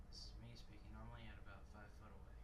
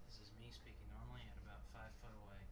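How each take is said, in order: No difference in how they are said.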